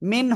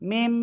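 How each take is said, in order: First: The word ends with an N sound. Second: The word ends with an M sound. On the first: The speaker calls it wrong. "মিন হবে না" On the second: The speaker calls it right. "মিমজের উচ্চারণ এমন আসবে"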